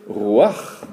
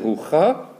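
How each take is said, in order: First: The a vowel comes before the ch sound. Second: The a vowel comes after the ch sound. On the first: The speaker calls it right. "on va prononcer ruach" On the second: The speaker calls it wrong. "on ne va pas prononcer rucha"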